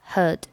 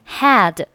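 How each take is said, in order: First: The word is said in a weak, reduced form. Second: The word is said in its full, strong form.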